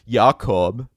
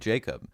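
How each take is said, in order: First: The name has a foreign, non-English pronunciation. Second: The name has the usual English pronunciation. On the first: This is how the name was originally meant to sound. "I don't say Jacob" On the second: This is the name he actually goes by. "I say Jacob"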